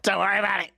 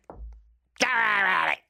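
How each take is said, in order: First: Mock English reassurance. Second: Drawn-out, lightly posh English soothing; slow mock English comfort; mock English reassurance, slower. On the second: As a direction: stretch "Don't worry about it" out slowly in a mild put-on English accent. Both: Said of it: "I went ridiculously English".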